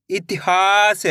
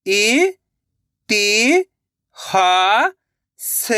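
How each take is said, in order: First: Said in the usual way. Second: "इ-ति-हा-स" very slowly, syllables apart; sounding out slowly. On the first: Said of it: "तो मिलके बन जाएगा". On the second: Shown as a demonstration. Teacher showing children how to sound out a word. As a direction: sound out "इ-ति-हा-स" piece by piece. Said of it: "एक एक अक्षर का उच्चारण करके".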